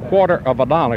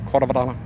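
First: The words are spoken fully and clearly. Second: The words are chopped together quickly. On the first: "instead of saying quarter of a dollar" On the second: "It's just a flip of the tongue and chopping the words"

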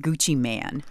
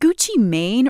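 First: The last word has a short 'a' vowel. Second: The last word has a long 'ay' vowel. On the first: "I'm cool with man, too" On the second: "Is it Gucci Mane or Gucci Man?"

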